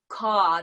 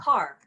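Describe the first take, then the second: First: It is said in a Long Island accent. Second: It is said in a neutral newscaster accent. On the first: "people don't say car" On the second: "they say car"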